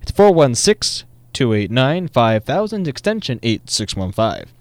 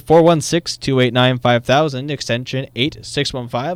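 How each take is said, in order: First: The number is read more slowly. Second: The number is read at normal, quicker speed.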